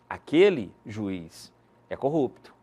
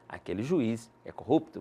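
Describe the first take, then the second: First: 'Juiz' is set off by pauses on both sides. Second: It is said without pauses around 'juiz'.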